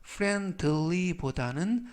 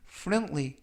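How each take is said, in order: First: Friendly보다는 with a full, clear d, FREND-tuh-lee; overpronounced wrong version. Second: Friendly as FREN-lee, with the d swallowed; the smooth, correct version with no d heard; natural pronunciation. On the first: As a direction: show the stiff version with the d spelled out. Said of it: "friendly보다는 friendly 라고 발음하시면". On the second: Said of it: "라고 발음하시면 좋겠고요". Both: Shown as a demonstration.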